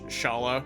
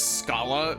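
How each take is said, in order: First: The name begins with an 'sh' sound. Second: The name begins with an 'sk' sound. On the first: The speaker calls it right. "Go with Sh Shala" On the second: The speaker calls it wrong. "I pronounced it as Scala back in Chrono Trigger, much to a lot of people's dismay"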